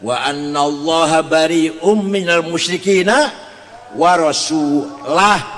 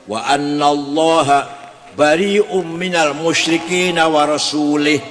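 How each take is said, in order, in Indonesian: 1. Kata terakhir berakhir dengan vokal 'u'. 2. Kata terakhir berakhir dengan vokal 'i'. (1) "Yang benar" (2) "ada lagi orang baca Quran salah"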